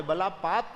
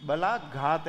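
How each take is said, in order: First: बलापात read as printed, with a plain p sound; reading out the misprint बलापात as a wrong form; बलापात said with p in the middle; misprinted word read out. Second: बलाघात said slowly with a clear aspirated gh; correcting it to बलाघात, gh sound stressed; बलाघात as बला-घात, voiced aspirated gh; correct pronunciation. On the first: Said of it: "misprint हुआ है". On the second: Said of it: "ये बलाघात है". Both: Shown as a demonstration.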